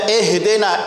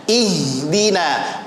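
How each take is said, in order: First: Ihdina said as "ehedena"; e instead of i. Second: Ihdina slowly with a pure i; clear i. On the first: Teacher imitates common readers, vowels slipped to e. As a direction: turn each i of "ihdina" into a lax eh. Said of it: "bukan e". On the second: Teacher models it for attentive students, i clear and slow. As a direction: say "Ihdina" with a true ee, never eh. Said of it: "I bunyinya". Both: Shown as a demonstration.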